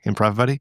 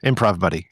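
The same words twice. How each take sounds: First: Improv Buddy? with Buddy rising as a question; questioning rise. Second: Said in the usual way. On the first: Real, not acted. Double-checking the bot's name with a friend, rising question. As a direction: check the name back as a query.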